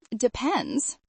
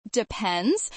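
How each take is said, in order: First: Said in the usual way. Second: Playful, teasing rise; innocently naughty. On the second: Acted. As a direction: tease him, sweetly coy. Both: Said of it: "in my best innocently naughty voice".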